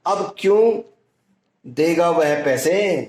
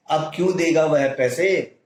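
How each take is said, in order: First: Mocking rhetorical tune; scoffing rhetorical question. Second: Said in the usual way. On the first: Shown as a demonstration. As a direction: ask "अब क्यों देगा" as if the answer is obviously no. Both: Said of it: "इसमें अनुतान परिवर्तित होती है".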